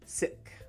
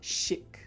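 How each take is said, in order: First: The word begins with an s sound. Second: The word begins with an sh sound. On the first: The speaker calls it right. "but you want si, sick" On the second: The speaker calls it wrong. "Also not chic, right? We don't want the sh sound either"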